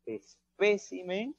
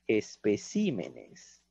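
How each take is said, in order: First: "espécimen" con fuerza en PÉ, despacio y más agudo; acento en espécimen. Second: "especímenes" con la fuerza de voz en CÍ; acento en especímenes. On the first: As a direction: carga la voz en la PÉ de "espécimen". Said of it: "el acento cambia". (sílaba tónica PÉ en "espécimen") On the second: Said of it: "Ha cambiado". (sílaba tónica CÍ en "especímenes") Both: Shown as a demonstration.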